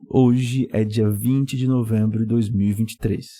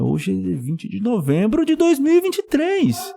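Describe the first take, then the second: First: It is said as a calm, plain statement. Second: It is said as an emphatic exclamation. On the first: "veja como eu respondo" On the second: "Com uma exclamação"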